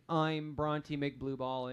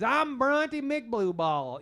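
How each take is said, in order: First: Slow, lower Southern drawl; made-up Southern accent. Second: Put-on slow, drawn-out Southern boy voice, pitched up; made-up Southern accent. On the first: Acted. Game master recalling the NPC's line in a slow Southern drawl. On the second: Game master voicing the NPC introducing himself, proud slow Southern drawl. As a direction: drawl the name out proudly and slowly. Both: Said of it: "in his very weird accent that I just made up".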